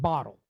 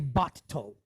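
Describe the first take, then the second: First: The middle consonant is a single short sound. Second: The middle consonant is held long, doubled. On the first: The speaker calls it right. "there's two T's in the middle" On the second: The speaker calls it wrong. "we don't say bottle"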